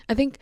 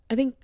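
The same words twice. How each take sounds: The two takes are said the same way.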